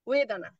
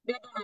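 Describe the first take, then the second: First: The word begins with a w sound. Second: The word begins with a b sound. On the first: The speaker calls it right. "এটা কি উচ্চারণ হচ্ছে ওয়েদানা" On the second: The speaker calls it wrong. "পালিতে বলে না বেদনা"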